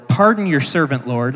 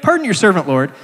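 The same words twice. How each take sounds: First: Said in the usual way. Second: Pleading apology. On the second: Acted. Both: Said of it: "he recognizes he's taxing God's patience".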